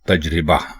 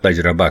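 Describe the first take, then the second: First: The vowel after the r is 'i'. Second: The vowel after the r is 'a'. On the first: The speaker calls it right. "दुरुस्त लफ्ज है तजरिबा" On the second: The speaker calls it wrong. "ये दोनों गलत हैं"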